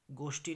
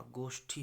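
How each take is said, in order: First: गोष्ठी with unaspirated टी; wrong pronunciation. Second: गोष्ठी with aspirated ठी; correct pronunciation. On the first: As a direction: say गोष्ठी as "goshti", no puff. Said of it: "नहीं होगा". (गोष्ठी में ठी की जगह टी बोलें) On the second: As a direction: say गोष्ठी as "goshthi", with a puff. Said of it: "होगा". (गोष्ठी में महाप्राण ठी बोलें) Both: Shown as a demonstration.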